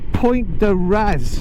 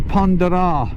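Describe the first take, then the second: First: The name is said with an English pronunciation. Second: The name is said with a local French pronunciation. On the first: "if we say it in English" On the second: "they pronounce it the Pont de Raz"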